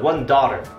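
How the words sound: It is spoken with an American accent. "in American English"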